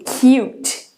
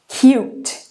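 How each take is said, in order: Both takes have the same delivery.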